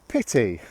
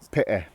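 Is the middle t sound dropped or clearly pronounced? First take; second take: pronounced; dropped. First: Said in Received Pronunciation with a clear t. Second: Said in a regional accent with the t dropped. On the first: "I'm going to pronounce them like receive pronunciation first" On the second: "this is how I would pronounce them"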